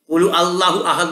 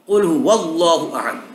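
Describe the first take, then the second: First: The 'huwa' sound after 'qul' is left out. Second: The 'huwa' sound after 'qul' is clearly said. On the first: The speaker calls it wrong. "কুলু আল্লাহু আহাদ নয়" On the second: The speaker calls it right. "কুল হুয়াল্লাহু আহাদ বলো"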